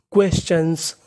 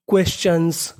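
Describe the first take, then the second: No difference in how they are said.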